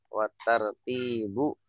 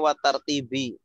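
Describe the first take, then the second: First: The word ends with a "u" vowel. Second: The word ends with an "i" vowel. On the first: The word is read as linked to the intention. The speaker calls it right. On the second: The word is read as linked to the Kaaba. The speaker calls it wrong.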